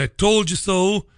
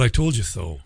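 First: "I told you so" lifted high, left hanging; quoted catchphrase. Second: "I told you so" said low and falling; dropped-down admission. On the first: Quoting the phrase before owning it. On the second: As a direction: drop "I told you so" low, as a final verdict. Owns the phrase just quoted. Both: Shown as a demonstration.

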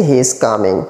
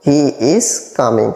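First: Said in the usual way. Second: Very slow, each word apart; slow teaching repeat. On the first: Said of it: "repeated slowly". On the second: Shown as a demonstration. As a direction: spell it out slowly for learners. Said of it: "teacher repeats slowly". (ধীরে ধীরে শেখানোর ভঙ্গিতে)

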